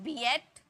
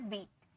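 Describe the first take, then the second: First: The vowels are split into two syllables. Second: The vowels merge into one long ee syllable. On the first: The speaker calls it wrong. "ऐसे थोड़ी बोलते हैं बी एट" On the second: The speaker calls it right. "ई ए का दोनों मिलाकर ई का sound निकलता है"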